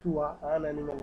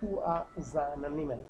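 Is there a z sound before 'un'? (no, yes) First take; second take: no; yes. First: There is no z sound before the vowel. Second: The s links to the next vowel as z. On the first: The speaker calls it wrong. "না বলে" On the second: The speaker calls it right. "আমি উচ্চারণ করছি"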